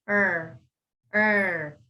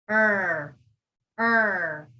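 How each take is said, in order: No difference in how they are said.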